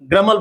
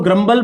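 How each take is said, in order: First: The b sound after the m is silent. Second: The b sound after the m is pronounced. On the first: The speaker calls it right. "बी हमेशा silent होता है" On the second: The speaker calls it wrong. "कई लोग इसको ग्रम्बल बोलते हैं"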